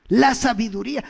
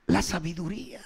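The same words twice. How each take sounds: First: "La sabiduría" said again, louder and pressed; emphatic repeat. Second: Said in the usual way. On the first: Shown as a demonstration.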